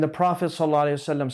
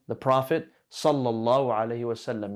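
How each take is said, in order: First: The blessing is rushed through quickly. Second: The blessing is said slowly and deliberately. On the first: No real supplication is intended. The speaker calls it wrong. "Don't say it like you're rushing through it" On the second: It is meant as a sincere praise and supplication. The speaker calls it right. "say it as you're giving a praise or a dua"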